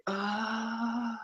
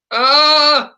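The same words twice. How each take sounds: First: Soft, airy "Ah" held high; breathy all the way. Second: High, loud "Ah" that jumps up; yelled flip sound. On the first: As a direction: let the "Ah" stay breathy and much softer. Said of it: "or is it all the way". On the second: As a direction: belt the "Ah" hard into the flip. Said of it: "what's the sound as they approach the flip?". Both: Shown as a demonstration.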